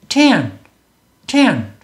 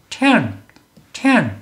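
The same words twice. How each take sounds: The two takes are said the same way.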